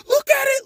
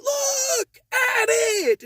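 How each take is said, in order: First: High, louder, sharp imitated yell; mock shout. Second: High, loud and very slow, each word stretched; drawn-out mock yell. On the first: Customer yelling at the manager to read the receipt, mock shout. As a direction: bark it like the furious customer. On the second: Customer stretching his yell at the manager, very slow mock shout. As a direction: imitate him dragging it out in anger. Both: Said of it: "Stop yelling at me".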